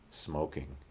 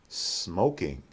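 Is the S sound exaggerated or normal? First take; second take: normal; exaggerated. First: The S sound is short and ordinary. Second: The S sound is drawn out and exaggerated. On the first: "the second time we'll make a normal S" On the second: "The first time we'll exaggerate the S"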